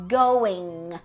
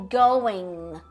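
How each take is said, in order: Both takes have the same delivery.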